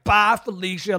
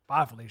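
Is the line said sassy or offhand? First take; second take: sassy; offhand. First: It is said with sass and attitude. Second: It is said flatly and offhandedly.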